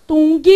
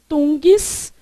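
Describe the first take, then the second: First: "Tung" said as the exam's wrong split, ending at g and cutting off the s; wrong syllable split. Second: "Tungs" said as one full syllable that keeps the n, g and s together; correct syllable split. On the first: Teacher shows the exam trick, then says "Tung" as the wrong split. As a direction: break "Tung" right after the g and leave the s for the next syllable. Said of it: "pra te enganar, olha o que que ele faz".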